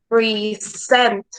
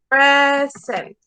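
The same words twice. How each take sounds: First: The stress is on the second syllable. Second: The stress is on the first syllable. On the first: "And present will be like this" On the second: "A present has the stress in the first syllable"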